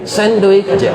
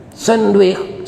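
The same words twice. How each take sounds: First: High "sandwich je" with the punch on "sandwich"; "sandwich" pressed hard, high and childlike; insistent child. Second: Put-on high child's "senduik" for sandwich; "Sandwich" said "senduik", pitched up like a small child; imitating a child's sandwich. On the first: Retold or imitated. Mimicking the boy insisting on "sandwich je" with stress on "sandwich". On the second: Preacher mimics the orphan asking for "Sandwich" as high "senduik". Child mispronouncing foreign food name.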